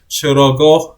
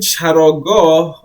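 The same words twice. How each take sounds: First: The word gets a relaxed, everyday pronunciation. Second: The word gets a careful, formal pronunciation. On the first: This is how people usually say it day to day. "we also usually say it like Charagoh as well" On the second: This is the textbook form of the word. "I guess it's the right way to say it"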